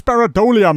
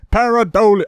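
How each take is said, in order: First: Said in the usual way. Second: Pareidolia hammered as its own word; emphatic repeat. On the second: Real, not acted. Correcting the YouTuber, Pareidolia repeated with heavy stress.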